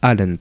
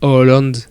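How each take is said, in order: First: The first vowel sounds like 'a'. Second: The first vowel sounds like 'o'. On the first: The speaker calls it wrong. "et pas" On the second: The speaker calls it right. "le A avec un rond, ça se dit Oh"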